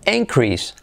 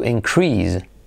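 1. El acento está en la primera sílaba. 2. El acento está en la segunda sílaba. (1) "el nombre sería increase" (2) "el verbo sería to increase"

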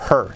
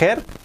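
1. La palabra empieza con sonido H aspirado. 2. La palabra empieza sin sonido H aspirado. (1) "Con la H" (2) "que no es her"

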